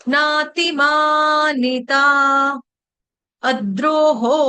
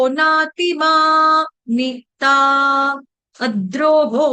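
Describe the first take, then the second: Both takes have the same delivery.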